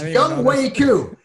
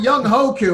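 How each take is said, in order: First: The middle sounds like 'way', not 'hoe'. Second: The middle sounds like 'hoe', not 'way'. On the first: The speaker calls it right. "It's Young Wei Koo" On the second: The speaker calls it wrong. "I used to call him Young Hoku, and I'm like, ooh, that doesn't sound good"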